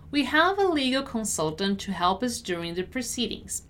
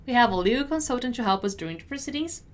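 First: Measured, clearly enunciated read; deliberate teacher's model. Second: Fast, connected read; brisk model sentence; quicker repeat. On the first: Teacher models sentence slowly first. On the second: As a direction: run it together at natural speed. Teacher repeats at quicker pace. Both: Shown as a demonstration.

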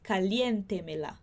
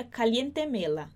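First: Caliente mela with TE held strong; correct stress. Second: Caliente mela with the stress shifted off TE; deliberately misplace the stress in caliente mela; wrong stress. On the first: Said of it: "eu tenho que dizer". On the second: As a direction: stress demo gone wrong. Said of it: "se eu não mantenho um acento". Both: Shown as a demonstration.

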